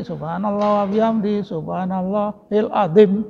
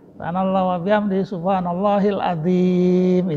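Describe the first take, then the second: First: The vowel in the last word is short. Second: The vowel in the last word is long.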